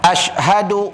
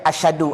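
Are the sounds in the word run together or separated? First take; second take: separated; run together. First: The sounds within the word are kept separate. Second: The sounds within the word run together. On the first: The speaker calls it right. "walaupun satu perkataan separatekan bunyinya" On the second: The speaker calls it wrong. "Duk ramai yang baca asyhadu"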